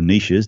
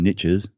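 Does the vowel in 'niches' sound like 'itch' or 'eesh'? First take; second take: eesh; itch. First: The word has a long ee vowel and sh. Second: The word rhymes with riches, short i vowel. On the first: "or niches, depending which country you're from" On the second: "there's riches and niches"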